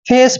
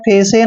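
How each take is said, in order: First: The final e is silent with no extra vowel. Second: The final e is sounded as an extra vowel. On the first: The speaker calls it right. "सिर्फ फेस पढ़ना है" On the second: The speaker calls it wrong. "फेसे नहीं पढ़ना है"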